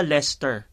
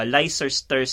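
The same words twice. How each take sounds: First: Leicester clipped to two syllables, Lester; correct Leicester. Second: Leicester read letter by letter as spelt, lay-ces-ter; misread Leicester. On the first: Host giving the proper way to say Leicester. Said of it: "Yung pala". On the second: Host showing the naive reading of Leicester. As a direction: sound out every letter of Leicester. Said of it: "akala ko ganun siya i-pronounce". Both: Shown as a demonstration.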